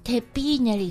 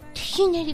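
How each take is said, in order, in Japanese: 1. 2つ目の音節は有声の'b'で始まる。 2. 2つ目の音節は無声の'h'で始まる。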